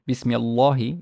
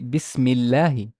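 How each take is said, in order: First: The L sound is heavy and dark. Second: The L sound is light and soft. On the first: The speaker calls it wrong. "it's wrong" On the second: The speaker calls it right. "it got soft"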